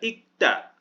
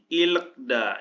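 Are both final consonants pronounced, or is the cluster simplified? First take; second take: simplified; both. First: Only the k sound of the cluster is pronounced. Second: Both cluster consonants are pronounced with an added vowel. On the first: The speaker calls it right. "tapi dibaca ikda ya" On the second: The speaker calls it wrong. "jangan dibaca ilekda ya, ini salah"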